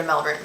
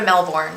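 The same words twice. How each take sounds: First: Melbourne said as MEL-burn; short "er" vowel in Melbourne; Melbourne, reduced second syllable. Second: Melbourne said as MEL-born; full "or" vowel in Melbourne; Melbourne, full second syllable. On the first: Correcting the city's name, Melbourne as MEL-burn. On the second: Trying out the city's name, Melbourne as MEL-born. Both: Shown as a demonstration. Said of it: "I think it's Mel-, yeah, you're right".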